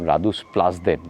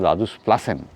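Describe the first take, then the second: First: The last syllable has a 'd' sound. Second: The last syllable has an 's' sound. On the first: The speaker calls it wrong. "আমি একটু আগে বললাম রাদুসপ্লাদেন" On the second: The speaker calls it right. "ওটা উচ্চারণটা হবে রাদুসপ্লাসেন"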